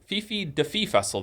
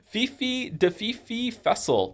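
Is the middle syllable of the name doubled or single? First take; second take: single; doubled. First: The middle part is a single 'Fi'. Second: The middle part is a doubled 'Fifi'. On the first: The speaker calls it right. "There you go" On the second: The speaker calls it wrong.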